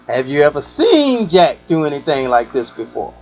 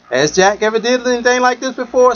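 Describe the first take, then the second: First: Asking the question a different way; reworded question. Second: Said in the usual way. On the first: Shown as a demonstration. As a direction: stress on "seen" in "Have you ever seen Jack". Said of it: "Second time". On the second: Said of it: "First time".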